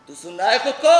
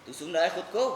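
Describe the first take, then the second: First: Loud shout, rising at the end; shouted, outraged question; angry reproach. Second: Controlled, disbelieving question; restrained rebuke, rising at the end; contained reproach. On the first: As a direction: raise your voice to make him hear himself. Mother repeats it, now shouting. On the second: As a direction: ask it firmly without shouting. Mother's first, contained reproach. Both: Acted.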